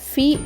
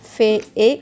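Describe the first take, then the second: First: The vowel is a long 'ee' sound. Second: The vowel is a short 'eh' sound. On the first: The speaker calls it right. "F ఈ ఈ ఉచ్చారణ ఫీ అవుతుంది" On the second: The speaker calls it wrong. "F ఈ ఈ ఉచ్చారణ ఫే ఏ కావాలి"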